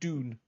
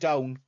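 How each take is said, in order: First: The vowel is a long 'oo' sound. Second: The vowel is the standard 'ow' sound. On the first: "We'll just say it doon" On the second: "we don't say it down"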